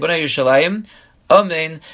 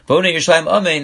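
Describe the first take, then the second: First: There is a short pause before Amen. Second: The words run together without a pause.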